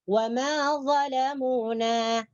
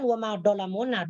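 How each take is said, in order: First: The key consonant is a soft dental 'dh'. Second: The key consonant is a hard 'd'-like sound. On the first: The speaker calls it right. "hujung lidah kita nih bagian depan sekali menyentuh ... hujung gigi atas" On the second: The speaker calls it wrong. "Bukan wa ma dolamuna"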